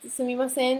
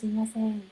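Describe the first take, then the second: First: The word is shouted very loudly. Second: The word is said in a small voice. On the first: The speaker calls it wrong. "don't want to shout shout very loudly" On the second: The speaker calls it right. "small voice"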